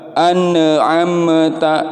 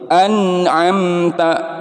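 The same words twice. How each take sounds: First: The n and m are released with a bounce. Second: The n and m are held cleanly without bounce. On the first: The speaker calls it wrong. "ini salah" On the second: The speaker calls it right. "Harus bersih"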